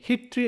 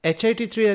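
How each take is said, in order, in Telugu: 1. HIT ను ఒకే పదంగా చెబుతారు. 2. HIT ను ఒక్కో అక్షరంగా విడదీసి చెబుతారు. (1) "అందరూ దీన్ని హిట్ త్రీ అంటున్నారు" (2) "హెచ్ఐటి త్రీ అని ప్రొనౌన్స్ చేయాలి"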